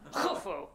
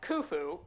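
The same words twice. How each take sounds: First: The name is said with a foreign accent. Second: The name is said plainly, as it is written. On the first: "you had to say it with an accent" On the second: "It's spelled like Khufu"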